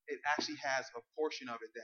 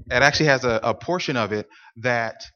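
First: Fast, rushed half-swallowed phrasing; rushed slip. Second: Said in the usual way. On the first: Real, not acted. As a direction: hurry through it before correcting yourself. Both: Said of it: "I'm sorry".

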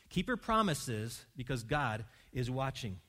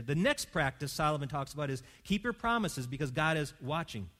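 First: "Keep your promises because God is watching" said slowly, each word weighed; measured, deliberate emphasis; slow emphatic repeat. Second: Said in the usual way. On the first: Shown as a demonstration. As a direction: drive the point home slowly. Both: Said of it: "repeated for emphasis".

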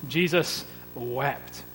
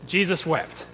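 First: Jesus wept said very slowly and softly; slow solemn emphasis. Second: Said in the usual way. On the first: Shown as a demonstration. Preacher quoting the shortest verse to the church, slow and solemn. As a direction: let each word of Jesus wept sink in. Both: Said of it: "shortest verse in the English New Testament".

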